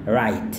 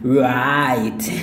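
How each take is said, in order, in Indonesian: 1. Kata langsung dimulai dengan bunyi r. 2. Bunyi w diucapkan sebelum r. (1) "Padahal yang benarnya W-nya tidak dilafalkan. Jadi cuma right" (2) "Ini banyak orang lafalkannya kayak gini. ... Karena mereka mau lafalkan yang W"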